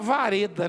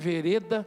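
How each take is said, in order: First: The first vowel sounds like 'a'. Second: The first vowel sounds like 'e'. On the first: The speaker calls it wrong. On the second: The speaker calls it right.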